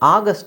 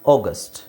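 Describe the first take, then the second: First: The first vowel is an open 'ah' sound. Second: The first vowel is a rounded 'aw' sound. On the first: The speaker calls it wrong. "ಆಗಸ್ಟ್ ಅಲ್ಲ" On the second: The speaker calls it right. "ನಾವು ಆ ಅಂತ ಹೇಳೋಕ್ಕಾಗಲ್ಲ"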